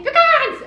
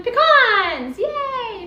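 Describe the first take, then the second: First: More excited. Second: Excited. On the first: Repeats louder, higher. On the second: Reveals the pecans. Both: Real, not acted.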